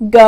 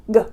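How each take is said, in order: First: G as a short, crisp sound with no "uh" after it. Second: G drawn into "guh", an uh vowel on the end; G with added uh. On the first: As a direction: say G clipped short, nothing trailing after the consonant. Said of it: "try to say those crisp sounds". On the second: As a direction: let an "uh" trail after the hard G. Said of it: "not to add the uh sound to the end". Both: Shown as a demonstration.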